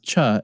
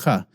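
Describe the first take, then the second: First: It starts with a 'ch' as in 'church'. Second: It starts with a raspy sound from the throat. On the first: The speaker calls it wrong. "it's not pronounced cha" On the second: The speaker calls it right. "It's pronounced cha. So ch as in the word Loch"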